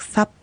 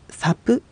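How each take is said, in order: First: サ ending in a closed p with no vowel after it, sap; サ said as sap, lips shut on the p with no vowel; correct pronunciation. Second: サプ with a full vowel after the p, sa-pu; サプ said wrongly with a voiced u after p; wrong pronunciation. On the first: Teacher shows the right way, サ as sap with a closed p. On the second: Teacher shows the wrong way, サプ with an added vowel. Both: Shown as a demonstration. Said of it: "サプではなくサ".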